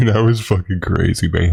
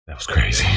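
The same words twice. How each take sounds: First: Laughing. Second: Said in the usual way. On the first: Real, not acted. Rerunning the line, then laughing.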